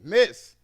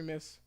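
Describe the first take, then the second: First: It is said loudly and with authority. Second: It is said softly and politely.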